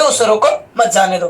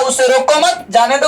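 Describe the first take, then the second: First: Brief break before मत, ending low; pause after रोको. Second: Brief break between मत and जाने; pause after मत. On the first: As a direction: join मत to जाने दो, falling. (रोको के बाद हल्का ठहराव) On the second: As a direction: keep मत with रोको, then finish. (मत के बाद हल्का ठहराव) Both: Shown as a demonstration. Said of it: "इस चिन्ह में थोड़ा".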